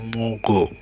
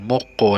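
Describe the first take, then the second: First: The middle consonant links on as a soft g. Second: The middle consonant is a held, hard k. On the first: The speaker calls it right. "tapi mogo" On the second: The speaker calls it wrong. "bukan moko"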